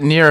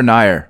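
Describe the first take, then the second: First: Nier said like "near"; pronunciation contrast. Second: Nier rhyming with "fire"; pronunciation contrast. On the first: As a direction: say Nier with an "ee" sound, as "neer". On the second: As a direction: say Nier with an "eye" sound, as "nigh-er". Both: Shown as a demonstration. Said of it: "Is it Nier or Nier?".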